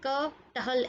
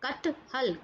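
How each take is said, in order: First: A break follows the first syllable. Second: The word is said without that break. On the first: The speaker calls it wrong. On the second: The speaker calls it right.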